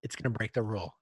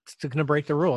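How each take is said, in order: First: Said in the usual way. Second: Playful insistence that it breaks the rule; louder insistent repeat. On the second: Shown as a demonstration.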